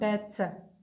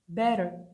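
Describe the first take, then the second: First: The middle consonant is a clear T. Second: The middle consonant sounds like a soft D. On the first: The speaker calls it wrong. "not better" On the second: The speaker calls it right. "It seems like a D"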